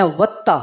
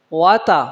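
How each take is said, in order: First: "وتا" with a doubled, held t; common misreading. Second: "واتا" as two light syllables, single t; correct reading. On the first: Teacher shows what people often read, "وتا" with doubled t. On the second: Teacher models the word, "واتا" with a single t. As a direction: say "واتا" without doubling the t. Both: Shown as a demonstration. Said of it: "اس کو اکثر لوگ پڑھتے ہیں".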